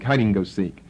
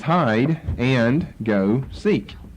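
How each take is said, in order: First: The words are run together quickly. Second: Each word is said clearly and separately.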